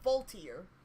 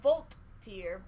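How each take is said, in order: First: The name is said slurred together smoothly. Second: The name is said in two separated parts. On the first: The speaker calls it right. "but Volteer" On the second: The speaker calls it wrong. "Not Volt-tier"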